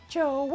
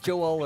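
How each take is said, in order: First: The name is drawn out loudly into three syllables. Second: The name is said in two short syllables. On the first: "she actually extends it out to three" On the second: "it is in fact it's two syllables"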